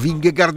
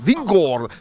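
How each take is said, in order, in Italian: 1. Il nome finisce con una g dura, 'gard'. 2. Il nome finisce con il suono vocalico 'or'. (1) "che tutti chiamiamo Vingegaard, no" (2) "va pronunciato Vingord"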